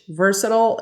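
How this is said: The word is said in an American accent. "Versatile is um, American English"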